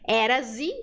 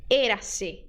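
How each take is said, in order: First: "Érase" with an open É and a buzzing Z, as a Brazilian would; wrong pronunciation. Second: "Érase" with a closed E and a crisp S, never Z; correct pronunciation. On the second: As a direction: say "Érase" right, closed E and sharp S. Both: Shown as a demonstration.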